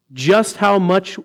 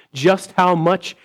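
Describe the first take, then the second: No difference in how they are said.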